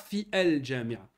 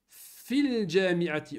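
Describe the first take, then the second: First: The article's vowel is pronounced separately. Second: The article's vowel is dropped and linked. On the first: The speaker calls it wrong. "On ne dit pas Fi El Jami'a" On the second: The speaker calls it right. "la même chose"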